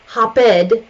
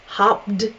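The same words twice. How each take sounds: First: The word is said as two syllables. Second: The word is said as one syllable. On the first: The speaker calls it wrong. "not okay" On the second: The speaker calls it right. "Hopped is okay"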